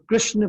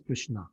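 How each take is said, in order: First: The name ends without a final ah sound. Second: The name ends with a clear ah sound.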